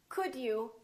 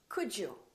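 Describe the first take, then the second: First: The D and you are said separately. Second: The D and you blend into one sound. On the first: "Could you becomes" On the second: "becomes could you"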